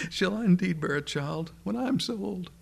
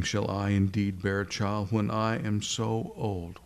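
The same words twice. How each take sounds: First: High-pitched, amused incredulity, as if chuckling; hammed-up old woman tickled by an absurd idea; Sarah, chortling in disbelief. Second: Serious, sober quoting of her question; measured, humourless questioning; the Lord, unamused. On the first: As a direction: ask it through a private chortle, voice lifted high. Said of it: "kind of chortling to herself". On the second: Acted. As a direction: repeat her words back without any amusement. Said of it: "wasn't quite so, so funny to the Lord".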